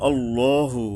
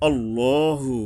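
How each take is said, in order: Both takes have the same delivery.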